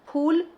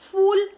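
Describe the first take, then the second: First: The word begins with an aspirated ph sound. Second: The word begins with an f sound. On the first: The speaker calls it right. "आपको फूल ही कहना है" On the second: The speaker calls it wrong. "वहाँ पर नुक्ता नहीं लगा है, अर्थात आप फूल बिल्कुल नहीं कहेंगे"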